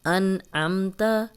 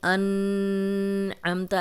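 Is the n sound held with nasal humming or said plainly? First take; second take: plain; humming. First: The n is said plainly without nasal hum. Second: The n is held with a nasal hum. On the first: The speaker calls it right. "ऐसे पढ़ेंगे" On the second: The speaker calls it wrong. "ऐसे नहीं पढ़ेंगे"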